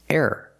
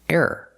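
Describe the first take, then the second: Both takes have the same delivery.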